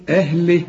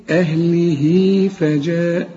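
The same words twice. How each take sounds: First: أهله cut short with no مد; stopping form. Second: أهله with a long ي-sound after ه, slow; connected recitation. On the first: Teacher to student: stopping on أهله without مد. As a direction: stop on أهله without stretching. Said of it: "إذا وقفت تقول إيه". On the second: Teacher to student: connected أهله with its مد. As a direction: stretch the هاء into فجاء. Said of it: "عند الوصل تقول إيه". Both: Shown as a demonstration.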